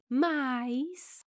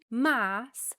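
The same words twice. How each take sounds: First: The word has an ai diphthong. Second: The word has a plain single vowel.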